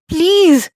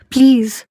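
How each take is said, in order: First: Please cried out high and loud, breaking; a sobbing, pitched-up second please; desperate plea. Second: A mild tearful please, a little raised. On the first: Wife begging the mother-in-law, high desperate sobbing please. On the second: Wife begging the mother-in-law, mild tearful please. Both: Acted. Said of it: "میں روئے جا رہی تھی".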